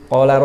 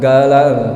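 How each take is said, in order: First: It begins with a deep Q sound. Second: It begins with a hard G sound. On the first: The speaker calls it right. "huruf Qaf" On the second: The speaker calls it wrong. "huruf Qaf diganti dengan huruf G-nya bahasa Latin"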